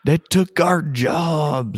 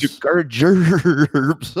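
First: Slow, high hammed-up redneck drawl; mock South Park redneck. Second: Slow, high, loud redneck drawl; louder hammed-up redneck echo. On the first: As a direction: stretch it out like a cartoon redneck. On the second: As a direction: bellow it out in a cartoon redneck drawl. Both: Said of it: "your best redneck voice".

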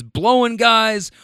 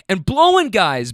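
First: Slow, higher echo of the interjection; grump continuing. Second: Imitating a friend's eager interjection; blurted out. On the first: Retold or imitated. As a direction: draw it out slowly, pitch lifted. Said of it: "And Grump continues". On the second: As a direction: jump in with it, slightly lifted. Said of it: "blurts out friend one".

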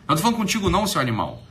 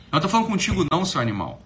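No difference in how they are said.

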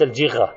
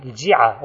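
First: الجغة with a ghayn instead of ayn, as al-jigha; mispronunciation shown. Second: الجعة with kasra on the jim and a light, unstressed ayn; correct Arabic pronunciation. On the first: Teacher showing students the wrong form, الجغة with ghayn. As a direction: say الجغة with a throaty gh sound. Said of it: "وليس الجغة". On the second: Teacher correcting students' mistake, clearly says الجعة as al-jiʿa. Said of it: "الجعة بكسر الجيم وتخفيف العين". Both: Shown as a demonstration.

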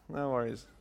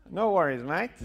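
First: Said in the usual way. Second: Loud, high Australian accent. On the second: Shown as a demonstration. Speaker demonstrating for the crowd, put-on Australian accent. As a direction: toss it off in broad Australian. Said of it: "I can do some Australian".

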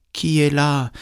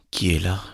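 First: Calling grandmother. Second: Lightly voiced gruff wolf; a hint of a big wolf's voice. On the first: Grandmother in bed answering a knock, high calling voice. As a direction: call out high to whoever knocks. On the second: Wolf in grandmother's bed answering a knock, lightly voiced big voice. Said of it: "la grosse voix du loup". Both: A narrator's reading.

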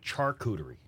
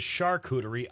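First: "charcuterie" with a CH as in chair; hard CH pronunciation. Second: "charcuterie" with a soft SH at the start; soft SH pronunciation. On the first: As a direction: say "charcuterie" as "char-cuterie". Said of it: "I say charcuterie". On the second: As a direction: say "charcuterie" as "shar-cuterie". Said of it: "she says charcuterie". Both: Shown as a demonstration.

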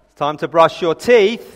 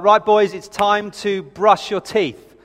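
First: Louder, drawn-out imitation of an insistent parent; parent's raised tone. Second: Lightly acted parent calling the boys, drawn out; a hint of a parent's routine call; slow, measured reminder, lightly imitated; lightly voiced parent. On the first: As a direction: firmer mock reminder to the kids. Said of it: "the tone goes up an octave or two". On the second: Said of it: "I hear these things kind of floating down the stairs".

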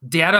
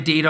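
First: Data said as DAT-uh; "data" starting like "dat"; short-A pronunciation. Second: Data said as DAY-tuh; "data" starting like "day"; long-A pronunciation. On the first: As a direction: say "data" with the vowel of "cat". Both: Shown as a demonstration. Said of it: "data and data are different things".

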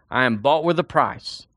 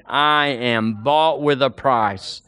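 First: Said in the usual way. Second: "bought" stretched slow and leaned on; slow call and response. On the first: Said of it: "say it with me". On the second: Shown as a demonstration. Preacher leading the congregation, slow drawn-out "bought". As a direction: say "I am bought with a price" slowly with the congregation. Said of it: "Point to yourself and say it with me".

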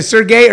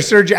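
First: Sergey said "sur-GAY"; hard G pronunciation. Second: Sergey said "SUR-jay"; soft G pronunciation. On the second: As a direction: say Sergey with a J sound in the middle. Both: Real, not acted. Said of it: "is it Sergey or Sergey".

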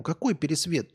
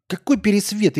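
First: Said in the usual way. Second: Loud outraged retort; angry. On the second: Real, not acted. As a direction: snap back, offended and loud. Angry reply to chat comment.

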